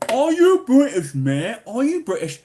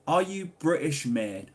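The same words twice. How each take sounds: First: High, loud mock interrogation; hammed-up shouted question. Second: Said in the usual way. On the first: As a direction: belt the question out in exaggerated disbelief. Hams up the question just read.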